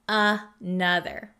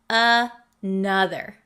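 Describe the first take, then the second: Both takes have the same delivery.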